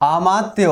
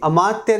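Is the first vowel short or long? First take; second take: long; short. First: The word begins with a long aa vowel. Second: The word begins with a short a vowel. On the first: The speaker calls it right. "आमात्य होता है। ये हमारा शब्द शुद्ध है।" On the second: The speaker calls it wrong. "अमात्य नहीं होता"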